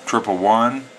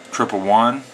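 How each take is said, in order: Both takes have the same delivery.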